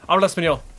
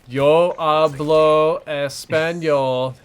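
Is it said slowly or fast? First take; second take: fast; slowly. First: It is said very fast and run together. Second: It is said slowly and carefully.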